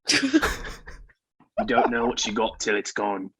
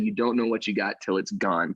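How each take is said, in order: First: It is read with emotion in an Australian accent. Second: It is read flatly in an ordinary accent. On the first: The speaker calls it right. "British accent and everything. This is more Australian" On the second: The speaker calls it wrong. "shouldn't have read it as dry as I did"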